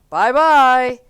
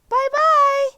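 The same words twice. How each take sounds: First: It is said in a deep, gruff voice. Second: It is said in a medium-pitched voice.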